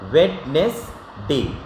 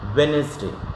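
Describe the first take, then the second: First: The middle d sound is pronounced. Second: The middle d sound is silent. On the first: The speaker calls it wrong. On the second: The speaker calls it right.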